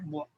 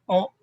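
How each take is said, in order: First: It starts with a 'w' glide. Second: It is a plain vowel 'o'. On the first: "O and our wo" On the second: "O and our wo"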